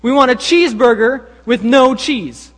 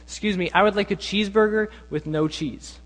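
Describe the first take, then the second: First: High, loud, emphatic demand; mock insistence. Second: Mildly imitated polite customer request. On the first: Prank customers demand their order from cashier, loudly insistent. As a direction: insist loudly with hammed-up indignation. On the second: Friends prank a McDonald's cashier, very politely. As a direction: order with careful, mock courtesy. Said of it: "very politely say".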